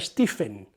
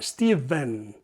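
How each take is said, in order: First: The middle consonant is an f sound. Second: The middle consonant is a v sound. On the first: The speaker calls it wrong. "no se pronuncia Stephen" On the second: The speaker calls it right. "se pronuncia Steven"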